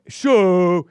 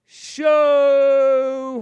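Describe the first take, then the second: First: Shorter loud SHOW, raised pitch; hammed-up manly SHOW, briefly held; mock manly call. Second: Long, loud, high SHOW; hammed-up big-voiced SHOW, drawn out; mock manly call. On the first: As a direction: punch out SHOW big and loud. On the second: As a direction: belt out SHOW and hold the vowel. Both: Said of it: "trying to sound all manly".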